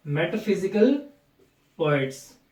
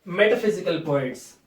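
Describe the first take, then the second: First: A clear pause between metaphysical and poets; word-by-word repetition. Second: Said in the usual way. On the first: Shown as a demonstration. Teacher repeating the key term for students, metaphysical and poets said separately. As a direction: lift the end of metaphysical, pause, then let poets fall.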